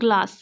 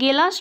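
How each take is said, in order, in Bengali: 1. g ও l একসাথে একটি গুচ্ছ গঠন করে। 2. একটি স্বরধ্বনি g ও l-কে আলাদা করে। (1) "ওটা গ্লাস" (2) "ওটা গেলাস নয়"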